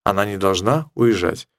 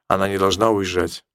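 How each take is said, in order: Both takes have the same delivery.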